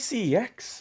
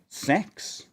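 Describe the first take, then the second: First: The name is spoken as separate letters. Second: The name is spoken as a single word. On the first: "we say C X" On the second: "None of us says um sex in that way"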